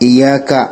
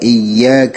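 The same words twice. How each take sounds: First: The y sound is single and short. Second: The y sound is doubled and held. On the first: It refers to the light of the sun. The speaker calls it wrong. "കട്ടി കൊടുക്കാതെ ഉച്ചരിക്കാൻ ഉച്ചരിച്ചു കഴിഞ്ഞാൽ അർത്ഥം മാറിപ്പോകും" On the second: We worship only you. The speaker calls it right. "യാഇന് കട്ടി നൽകിക്കൊണ്ട് ഉച്ചരിക്കേണ്ടതാണ്"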